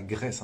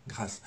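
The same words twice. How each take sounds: First: « Grèce » avec un è ouvert, comme le pays; mauvaise prononciation. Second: « grâce » avec un a long et grave; bonne prononciation. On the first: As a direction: dites « Grèce » avec è, pas un a. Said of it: "et pas sur, et pas Grèce". (« Grèce » prononcé avec è, à éviter) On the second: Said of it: "et pas Grèce, hein, grâce". (« grâce » avec un â long et sombre) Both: Shown as a demonstration.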